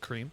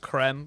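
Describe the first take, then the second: First: The vowel is long, like in 'seem'. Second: The vowel is short, like in 'them'. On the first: This is how the player himself says it. "but he pronounced it cream" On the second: This follows the spelling of the name. "it should be pronounced creme because of the way it's spelled"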